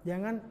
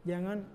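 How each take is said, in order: No difference in how they are said.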